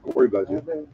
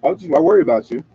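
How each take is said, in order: First: Much higher, softer I worry about you; high, hushed mock concern; mock tender. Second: Said in the usual way. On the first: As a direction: coo it like a doting parent. Checks on sleeping listener.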